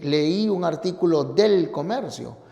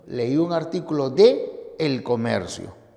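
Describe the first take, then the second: First: De and el run together with no pause. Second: A clear pause separates de from El Comercio. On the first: The speaker calls it wrong. "no puedes decir" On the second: The speaker calls it right. "una pausa mayor te evita la cacofonía"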